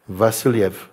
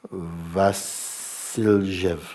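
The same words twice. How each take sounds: First: "Vasiljev" said cleanly as "va-sil-yev", falling; corrected name. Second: "Vasiljev" stretched very slowly and garbled as "vailje"; fumbled name. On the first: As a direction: say "Vasiljev" clearly, every syllable in place. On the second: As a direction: stumble slowly through "Vasiljev" unsure of it. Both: Real, not acted.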